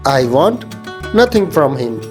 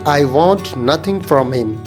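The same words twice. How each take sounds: Both takes have the same delivery.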